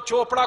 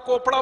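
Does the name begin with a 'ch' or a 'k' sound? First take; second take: ch; k. First: The name begins with a 'ch' sound. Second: The name begins with a 'k' sound. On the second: "कोपड़ा बोलना चाहिए"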